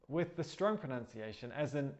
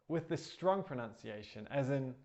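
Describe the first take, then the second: The two takes are said the same way.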